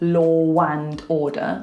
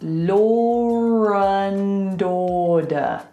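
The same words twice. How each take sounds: First: Law links to and with a W sound. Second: Law links to and with an R sound. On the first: The speaker calls it wrong. "We don't go law and order, because that sounds ridiculous" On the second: The speaker calls it right. "We go law and order"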